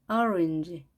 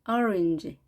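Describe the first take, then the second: Both takes have the same delivery.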